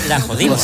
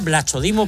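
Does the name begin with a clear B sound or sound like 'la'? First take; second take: like 'la'; clear B. First: The name begins sounding like the word 'la'. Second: The name begins with a clear B sound. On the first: "ha mirado la pronunciación griega" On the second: "se llama Blachodimo"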